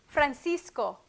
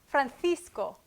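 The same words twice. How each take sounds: First: The middle consonant sounds like an s. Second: The middle consonant sounds like a th.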